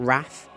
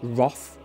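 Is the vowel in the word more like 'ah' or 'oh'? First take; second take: ah; oh. First: The vowel sounds like 'ah' or 'a'. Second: The vowel sounds like 'oh' or 'aw'. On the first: The speaker calls it wrong. "not Wrath" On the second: The speaker calls it right. "we pronounce it Wroth"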